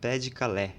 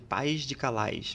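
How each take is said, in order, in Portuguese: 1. A primeira palavra é dita sem som de s no final. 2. A primeira palavra é dita com som de s no final. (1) "mas em francês seria" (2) "que se escreve, na verdade"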